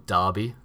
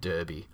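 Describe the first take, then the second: First: It is said in an Australian way. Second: It is said in a non-Australian way.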